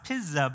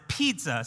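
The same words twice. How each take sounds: First: The word is sounded out by its spelling rules. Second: The word is said the usual everyday way. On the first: This is how the spelling rules say it should sound. "it should be pronounced pizza" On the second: This is how people actually say it. "we pronounce it pizza"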